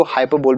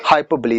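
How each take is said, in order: First: हाइपरबोल ending in "bol", without the ee; alternative pronunciation. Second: हाइपरबोली closing on "lee"; real pronunciation. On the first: Teacher accepting what some people say, हाइपरबोल ending in "bol". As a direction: say हाइपरबोल as hai-per-bol. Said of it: "कुछ लोग इसको हाइपरबोल भी पढ़ते हैं". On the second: Teacher confirming the real reading, हाइपरबोली ending in "lee". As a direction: pronounce हाइपरबोली as hai-per-blee. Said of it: "इसका real pronunciation होता है". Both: Shown as a demonstration.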